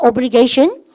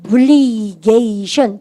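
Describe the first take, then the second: First: Said in the usual way. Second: "obligation" stretched very slowly, syllable by syllable; drawn-out syllables. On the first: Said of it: "발음이니까". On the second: Shown as a demonstration. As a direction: spell out "obligation" by sound, each syllable held long. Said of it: "영어 스펠링 한번 볼까요?". ("obligation"을 음절마다 아주 길게 늘여서)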